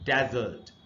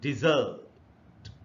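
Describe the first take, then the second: First: The stress is on the first syllable. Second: The stress is on the second syllable. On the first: It is the noun meaning a dry, sandy region. "पहला जो syllable है इसी पर primary stress" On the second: It is the verb meaning to abandon. "दूसरा जो syllable है ये, यहां पर स्ट्रेस है"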